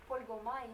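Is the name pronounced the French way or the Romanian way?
French. The name is pronounced the French way. "mais quand on parle en français, on euh, devrait dire euh"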